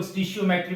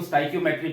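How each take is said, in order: First: स्टिशियोमेट्री said as "sti-shi-yo-metry"; स्टिशियोमेट्री, the "stishiometry" variant; alternative pronunciation. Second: स्टोइकियोमेट्री said as "stoy-ki-yo-metry"; स्टोइकियोमेट्री, the "stoichiometry" way; teacher's pronunciation. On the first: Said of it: "कुछ लोग स्टिशियोमेट्री भी पढ़ते हैं". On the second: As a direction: say स्टोइकियोमेट्री with a hard "ki" in the middle. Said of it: "मैं इसको स्टोइकियोमेट्री पढ़ता हूँ". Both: Shown as a demonstration.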